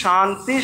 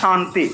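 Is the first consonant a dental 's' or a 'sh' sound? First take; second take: sh; sh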